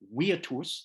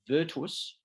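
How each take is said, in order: First: The word is given a classical Latin pronunciation. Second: The word is given a modern English pronunciation. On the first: This is how the ancient Romans pronounced it. "The Romans would have pronounced it virtus" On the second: This is how people pronounce it today. "we would pronounce it virtus"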